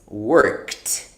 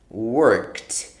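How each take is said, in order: No difference in how they are said.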